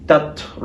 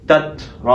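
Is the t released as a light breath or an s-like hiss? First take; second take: light breath; light breath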